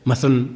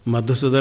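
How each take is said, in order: First: The word is said fast with syllables dropped. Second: Every syllable of the word is said clearly. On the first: The speaker calls it wrong. "प्रमाद के कारण उच्चारण नहीं होता है" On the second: The speaker calls it right. "मधुसूदन है"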